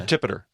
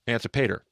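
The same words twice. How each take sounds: First: "Antipater" with the stress on TIP; shifted syllable stress. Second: "Antipater" as an-ti-PAY-ter; alternative pronunciation. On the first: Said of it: "wherever you put the emphasis on the syllable". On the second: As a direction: say "Antipater" with a long PAY in the third syllable. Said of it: "however you like to pronounce that". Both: Shown as a demonstration.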